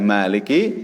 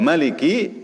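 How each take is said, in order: First: The first vowel is held long. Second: The first vowel is kept short. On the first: "bi itsbatil alif" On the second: "bi hadzfil alif"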